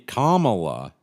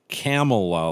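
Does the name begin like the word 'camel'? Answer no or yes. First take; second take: no; yes. First: The first part does not sound like 'camel'. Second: The first part sounds like the word 'camel'. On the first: The speaker calls it right. "Kamala is right because that's the non racist" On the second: The speaker calls it wrong. "like you're riding a camel"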